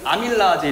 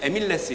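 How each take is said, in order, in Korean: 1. 이 단어는 a-mil-la-a-je로 발음합니다. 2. 이 단어는 e-mil-les로 발음합니다. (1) "우리는 아밀라아제 이렇게 읽었잖아요" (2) "요새는 에밀레스 이렇게 읽는답니다"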